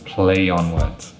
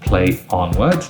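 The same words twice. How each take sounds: First: A y sound joins play to on smoothly. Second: Play and on are separated without linking. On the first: The speaker calls it right. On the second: The speaker calls it wrong. "That's not smooth"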